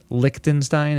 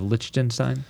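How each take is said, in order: First: "Liechtenstein" with a hard k, like "Lick-tenstein"; hard k pronunciation. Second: "Liechtenstein" with a ch, like "Litch-tenstein"; soft ch pronunciation. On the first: Co-host checking how Lich is said, "Liechtenstein" with a k sound. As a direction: say the first syllable of "Liechtenstein" as "lick". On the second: Co-host giving the alternative sound, "Liechtenstein" with a ch sound. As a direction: say the first syllable of "Liechtenstein" as "litch". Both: Shown as a demonstration. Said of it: "like, Liechtenstein instead of Liechtenstein".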